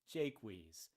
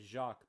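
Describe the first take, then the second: First: The name is said with an English pronunciation. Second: The name is said with a French pronunciation. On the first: "sort of anglicized as Jaques or Jakes" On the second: "not French as Jacques"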